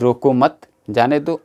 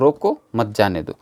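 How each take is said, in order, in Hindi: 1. विराम 'mat' के बाद आता है। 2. विराम 'roko' के बाद आता है। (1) "उसको रोको मत, जाने दो" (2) "उसको रोको, जाने मत दो"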